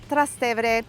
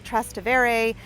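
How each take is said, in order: First: The word is said with an Italian pronunciation. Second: The word is said with a non-Italian pronunciation. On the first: "In Italian, it's pronounced" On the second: "You may have heard this neighborhood pronounced as"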